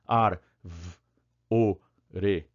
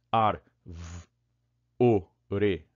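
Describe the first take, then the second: First: "Ar, v, o, re" chopped into separate bits; bizarre syllable split. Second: "Ar, v, o, re" chopped into separate bits again; bizarre syllable split. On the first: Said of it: "imagina você separando a árvore assim". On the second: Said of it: "Percebeu como fica bizarro isso?". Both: Shown as a demonstration. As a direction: split árvore apart awkwardly, bit by bit. ("Ar, v, o, re" separado de forma estranha)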